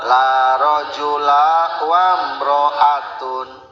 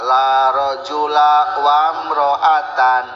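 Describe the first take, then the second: First: The last word ends in the sound -un. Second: The last word ends in the sound -an. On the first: The word is in the nominative case. "Menang rofa" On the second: The word is in the accusative case. "Menang nasab"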